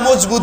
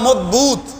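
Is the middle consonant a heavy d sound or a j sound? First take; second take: j sound; heavy d. First: The middle consonant is a j sound. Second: The middle consonant is a heavy Arabic d. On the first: This is the form used in Bengali. "বাংলায় এসে মজবুত হয়ে গেছে আর কি, জ হয়ে গেছে" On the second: This is the original Arabic form. "আরবিতে শব্দটা হলো মজবুত, মজবুত মানে দদ দিয়া"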